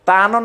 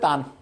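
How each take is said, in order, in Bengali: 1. শব্দটি একটি হ্রস্ব স্বরধ্বনি দিয়ে শেষ হয়। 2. শব্দটি হসন্ত ব্যঞ্জনে শেষ হয়। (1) "তানও না বলে" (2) "হালকা উচ্চারণ করে ছেড়ে দিব তান"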